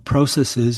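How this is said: The word has a Canadian pronunciation.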